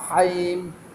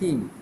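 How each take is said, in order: First: The vowel is stretched into a long ha-im sound. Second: The vowel is a short, clipped i sound. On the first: The speaker calls it wrong. "Haim tu ha alif ya" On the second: The speaker calls it right. "Dia kena him"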